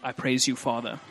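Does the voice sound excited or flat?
flat. The voice is flat with little excitement. The speaker calls it wrong. "the guy's voice is like"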